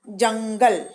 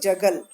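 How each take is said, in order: First: The word is said with a nasal sound. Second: The word is said without a nasal sound. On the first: "जैसे ही मैं इस पे बिंदु डालूंगी" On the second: "ये जगल है"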